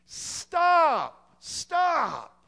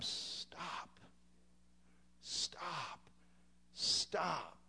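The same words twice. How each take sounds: First: High, loud, drawn-out shouts; yelled warning. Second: Very soft, drawn-out cries; hushed mock scream. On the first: Acted. Preacher yells to halt the perishing, high urgent shout. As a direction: shout each word at full force, falling at the end. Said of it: "get on the bridge and yell". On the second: Preacher urges brethren to warn the lost, hushed mock scream. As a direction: scream it under your breath, each word falling away. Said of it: "we gotta scream".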